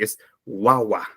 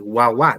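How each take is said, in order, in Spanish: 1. El acento está en la primera sílaba. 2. El acento está en la última sílaba. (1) "No es así, es" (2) "Yo no digo"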